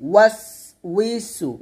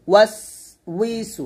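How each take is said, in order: No difference in how they are said.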